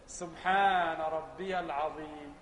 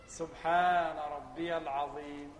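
The two takes are said the same way.

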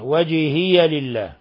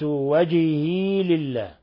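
First: The y at the word's end takes an a vowel. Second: The y at the word's end has no vowel. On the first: "قرأها بالفتح" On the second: "بإسكان الياء"

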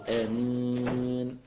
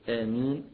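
First: The final long vowel is held for four counts. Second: The final long vowel is held for two counts. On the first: "أربعة" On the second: "حركتين"

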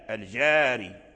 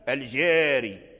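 First: The long vowel is fully open, like ah. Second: The long vowel is fronted, leaning toward ee. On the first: "المفتوح" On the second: "الممال"

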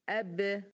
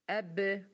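The two takes are said the same way.

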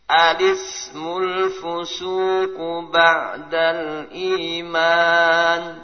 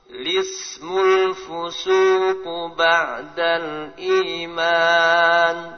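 First: It begins with an a vowel before the l. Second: It begins directly with the l sound. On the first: "yang pertama menetapkan alif" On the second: "dengan menghilangkan alif langsung"

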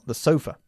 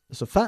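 First: The stress is on the first syllable. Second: The stress is on the second syllable. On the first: The speaker calls it right. "enfatizamos la otra sílaba, la primera" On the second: The speaker calls it wrong.

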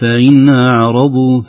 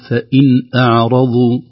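First: The glottal stop is eased and weakened. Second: The glottal stop is fully and firmly pronounced. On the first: The speaker calls it wrong. "لا نقول فإن أعرضوا، فإن أعرضوا كان همزة مسهلة" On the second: The speaker calls it right. "نقول فإن أعرضوا"

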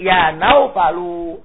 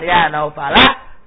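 First: The name ends in a 'u' vowel. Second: The name ends in an 'a' vowel. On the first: The name is the direct addressee of the call. The speaker calls it right. "Jikalau dia munada, tentu dibaca naufalu" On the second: The name is marked as an object, not an addressee. The speaker calls it wrong. "bukan ya naufala bin nasbi"

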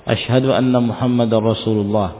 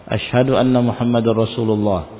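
No difference in how they are said.

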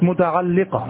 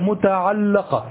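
First: The vowel after the l sound is i. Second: The vowel after the l sound is a. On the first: It is the thing that attaches to something else. The speaker calls it wrong. "وليست متعلقة" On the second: It is the thing that something else attaches to. The speaker calls it right. "فهي متعلقة"

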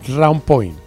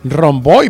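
First: It is said as two words, round point. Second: It is blended into one short word, rompoi. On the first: The speaker calls it right. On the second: The speaker calls it wrong.

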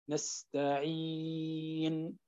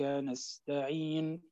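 First: The long vowel is held for six counts. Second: The long vowel is held briefly, two counts. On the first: "6 حركات" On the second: "حركتين"

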